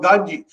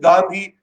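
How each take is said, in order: First: The middle consonant is a 'j' sound. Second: The middle consonant is a 'dh' sound. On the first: This is the Japanese way of saying the name. "since there is no the sound in Japanese, it was Ganji" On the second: This is the Indian way of saying the name. "I pronounced it Gandhi"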